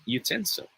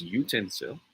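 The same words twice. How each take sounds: First: Utensil said yoo-TEN-sil; stress on second syllable. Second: Utensil said YOO-ten-sil; stress on first syllable. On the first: Tutor offers wink face option, second-syllable stress. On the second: Tutor offers smiley face option, first-syllable stress. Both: Shown as a demonstration. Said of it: "This one is a matter of stress".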